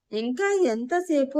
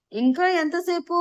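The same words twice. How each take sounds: First: Mild, slower quote of an impatient question; slightly raised retelling. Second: Mild narrated yell, pitched high; impatient yell. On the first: Retold or imitated. Husband defending his earlier shout to wife, mildly raised retelling. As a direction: repeat it defensively, drawn out and a little higher. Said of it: "కొంచెం గట్టిగా అడిగాను". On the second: A narrator's reading. Husband bursting into the kitchen asking about food, mild impatient yell. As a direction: call out impatiently, raised pitch but not full volume. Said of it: "అరుస్తూ గదిలోకి వచ్చాడు".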